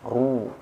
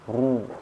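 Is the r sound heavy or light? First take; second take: heavy; heavy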